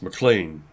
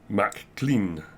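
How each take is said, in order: First: The first part is short and reduced. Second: The first part sounds like the word 'Mac'. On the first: The speaker calls it right. "whereas it's McLean" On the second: The speaker calls it wrong. "people unfamiliar would say Mac Clean"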